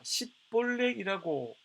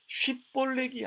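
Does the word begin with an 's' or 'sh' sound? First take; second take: s; sh. First: The word begins with an 's' sound. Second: The word begins with a 'sh' sound. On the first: The speaker is from Ephraim. The speaker calls it wrong. "시로 발음" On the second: The speaker is from Gilead. The speaker calls it right. "쉬 발음"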